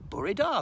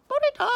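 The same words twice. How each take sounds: First: Said in the usual way. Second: Very high, loud squeak; owl puppet voice. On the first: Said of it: "that means good morning in Welsh". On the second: Pretend. Owl puppet says Welsh good morning, high squeak. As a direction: chirp it out as the little owl. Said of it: "You're gonna do your Welsh bit next".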